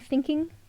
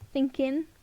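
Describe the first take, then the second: First: The word ends with a full 'ing' sound. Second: The word ends with a clipped 'in' sound. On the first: "Instead of saying thinking" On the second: "just drop the ing"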